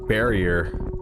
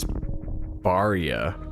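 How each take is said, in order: First: It is said with English vowels and ending. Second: It is said with Japanese-style vowels and ending.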